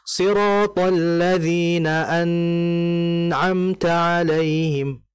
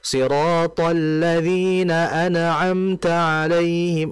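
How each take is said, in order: First: The n sound is held too long. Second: The n sound ends with a bounce. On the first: "Atau lama. ... itu salah" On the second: "memantulkan ... itu juga salah"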